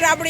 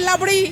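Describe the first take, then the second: First: The word begins with an R sound. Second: The word begins with an L sound. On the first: The speaker calls it right. "মানে রাবড়ি" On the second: The speaker calls it wrong. "ওই দোকানদার বলেছে লাবড়ি"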